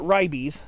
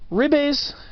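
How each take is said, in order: First: The word is pronounced in an English-style way. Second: The word is pronounced in a Latin-style way. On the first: This is how some other people say it. "Some people pronounce it ribes" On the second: This is closer to the original Latin. "I try to be a little closer to the, the actual Latin pronunciation"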